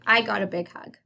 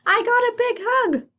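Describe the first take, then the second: First: It is said in a plain telling way. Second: It is said with strong excitement.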